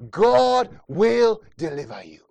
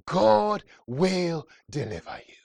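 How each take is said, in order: First: Louder, slower repeat. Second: Said in the usual way. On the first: Shown as a demonstration. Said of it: "repeated louder and slower". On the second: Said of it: "repeated declaration, second louder".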